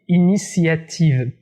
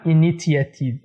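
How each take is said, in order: First: The first t sounds like s. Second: The first t sounds like t. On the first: The speaker calls it right. "Le premier T dans ce mot se prononce S" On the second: The speaker calls it wrong. "pas initiative"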